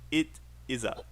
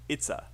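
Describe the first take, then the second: First: The words are said separately in full. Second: The words are contracted into one syllable. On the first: The speaker calls it wrong. "not it is a" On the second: The speaker calls it right. "It's it's a"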